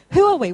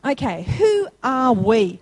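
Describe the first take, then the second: First: Higher, louder repeat; preacher pushing the crowd to answer; louder call. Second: Said in the usual way. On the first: Shown as a demonstration. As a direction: call it out to the room.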